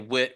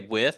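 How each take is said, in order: First: The word ends in a plain t sound. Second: The word ends in a th sound. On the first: Locals say it this way. "They say wit whiz" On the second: Locals do not say it this way. "they don't say with"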